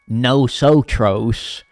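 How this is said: It is said with an American accent.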